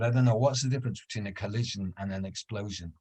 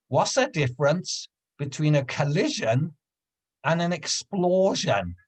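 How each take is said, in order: First: Said in the usual way. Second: Higher, slowing riddle question; lightly voiced old lady setting up a joke; old woman on a bench poses a riddle, lightly imitated; old woman's riddle.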